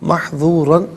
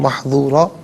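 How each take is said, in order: First: The word ends with an n sound. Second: The word ends with a long vowel. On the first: The reading continues without stopping. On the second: The reader stops at this word.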